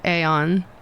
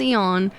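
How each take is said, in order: First: The initial a sound is pronounced. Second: The initial a sound is silent. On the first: This is how the speaker personally prefers it. "I always want to pronounce it aeon" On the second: This is how others officially say it. "they have the a as being silent"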